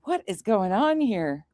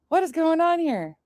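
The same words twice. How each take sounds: First: Said in the usual way. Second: What lifted higher, puzzled; higher mock-bewildered repeat. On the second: Retelling her confusion at the call, pitched higher. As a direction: ask it again higher, baffled. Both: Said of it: "At first, I was just like".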